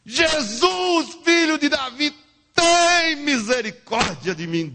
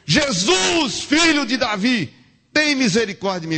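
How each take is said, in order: First: Very high, drawn-out desperate cry; soul-deep scream. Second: High, loud cry for mercy; shouted plea. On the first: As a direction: scream the plea from deep inside. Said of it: "um grito maior do mundo". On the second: Preacher voices blind Bartimeu crying out to Jesus, high shout. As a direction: call out to Jesus over the crowd. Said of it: "ele gritou". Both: Acted.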